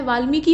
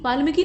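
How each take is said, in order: First: वाल्मीकि with long "mee"; correct form. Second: वाल्मीकि with "ma" in the middle; wrong form. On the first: Teacher correcting the name, वाल्मीकि with long mee. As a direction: say वाल्मीकि as "vaalmeeki". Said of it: "वाल्मीकि होता है". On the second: Teacher showing the mistake, वाल्मीकि as "vaalmaki". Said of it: "नहीं होता है". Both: Shown as a demonstration.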